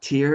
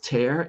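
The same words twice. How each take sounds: First: The vowel rhymes with 'ear'. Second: The vowel rhymes with 'air'. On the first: It means a drop from the eye. "someone's face with tears coming from their eyes" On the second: It means a rip in something. "I saw this picture... there's a tear in this paper"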